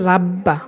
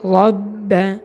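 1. r টি চিকন, স্বরটি পাতলা ও খোলা। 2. r টি মোটা, স্বরটি ভরাট ও গোল। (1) "অনেকে পড়ে রাব্বা" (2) "রব্বা পড়তে হবে"

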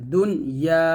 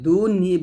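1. শব্দটি 'ah' স্বরধ্বনি দিয়ে শেষ হয়। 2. শব্দটি 'ee' স্বরধ্বনি দিয়ে শেষ হয়। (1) "দুনিয়া এরকম" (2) "এই নুনটা জের দিয়ে পড়ি, দুনই বলা যাবে না"

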